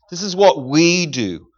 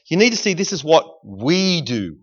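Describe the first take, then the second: First: This is what we do, drawn out slowly with weight on "what"; slow down and lean on "what"; slow emphatic repeat. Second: Said in the usual way. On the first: Shown as a demonstration. Preacher repeats key phrase slowly.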